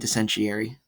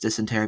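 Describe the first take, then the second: First: The word has a deliberately altered pronunciation. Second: The word has its usual standard pronunciation. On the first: This is a running joke form. The speaker calls it wrong. "but we say dysentery" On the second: This is the known correct form. The speaker calls it right. "We know it's dysentery"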